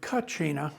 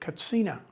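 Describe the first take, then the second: First: The middle consonant is a ch sound. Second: The middle consonant is a ts sound. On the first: This is the older, long-used form. The speaker calls it wrong. "which was used for decades" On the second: This form respects how the people themselves say it. The speaker calls it right. "because there's no ch sound in the Hopi language"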